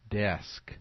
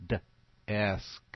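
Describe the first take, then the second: First: Said in the usual way. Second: D-esk with the d split off; D-esk, d sound then esk; segmented word. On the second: Shown as a demonstration. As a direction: pull the d away from esk.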